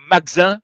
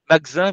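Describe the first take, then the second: First: The second A is swallowed and barely heard. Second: The same.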